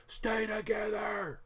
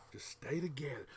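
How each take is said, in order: First: Shouting. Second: Whispering. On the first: Shouts at the seam. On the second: Whispered plea to seam. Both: Real, not acted.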